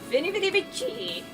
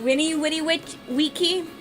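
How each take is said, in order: First: The words begin with a V sound. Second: The words begin with a W sound. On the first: The speaker calls it wrong. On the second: The speaker calls it right.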